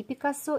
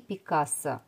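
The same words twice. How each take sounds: First: Пикассо stressed on the final syllable, pee-kah-SO; Пикассо with end stress, reduced middle vowel; stress on last syllable. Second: Пикассо stressed on the second syllable, pee-KAH-so; Пикассо with a stressed middle А and weak final vowel. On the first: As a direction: say Пикассо French-style, landing on the last -СО. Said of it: "с ударением на последний слог". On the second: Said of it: "Фамилию можно называть и". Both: Shown as a demonstration.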